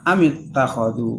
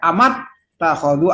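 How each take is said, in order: First: The vowel after the m is i. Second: The vowel after the m is a. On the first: The speaker calls it right. "semuanya kasroh" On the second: The speaker calls it wrong. "nggak boleh dibaca amat takhadhu"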